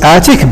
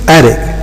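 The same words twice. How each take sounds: First: The middle consonant is a clear t. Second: The middle consonant sounds like a d. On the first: "normally, it's attic" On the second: "but for some native speakers, attic"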